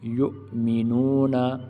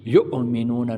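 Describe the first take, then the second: First: The glottal catch is sounded gently without jolting. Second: The glottal catch is pushed out with a jolt. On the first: The speaker calls it right. "बल्कि हम इस तरह पढ़ेंगे" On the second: The speaker calls it wrong. "झटका भी नहीं देना, इस तरह नहीं पढ़ना"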